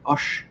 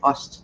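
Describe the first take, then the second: First: The word ends with an sh sound. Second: The word ends with a plain s and t. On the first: This is the regional Swabian form. "They say like Osh" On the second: This is the standard form. "they don't say Ost"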